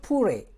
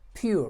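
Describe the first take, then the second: First: The vowel is said as a plain 'oo'. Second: The vowel is said with a 'yoo' glide. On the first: The speaker calls it wrong. "not pure" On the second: The speaker calls it right. "as read as pure"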